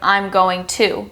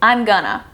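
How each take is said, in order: First: It is said fully as going to. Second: It is reduced to gonna. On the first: "instead of I'm going to" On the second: "This is commonly changed to I'm gonna"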